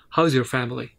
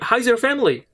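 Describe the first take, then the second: First: It is said in a lowered, heavy voice. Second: It is said in a lighter, unlowered voice. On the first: The speaker calls it right. "just lower your voice a little bit" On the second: The speaker calls it wrong. "not not in that way"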